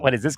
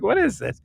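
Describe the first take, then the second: First: Said in the usual way. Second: High, incredulous question; mock baffled ask; bewildered. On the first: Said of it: "but I'm not". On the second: Recalling his shock at God growing, bewildered. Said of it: "I'm like".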